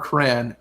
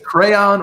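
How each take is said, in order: First: The word is said as one syllable. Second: The word is said with two syllables.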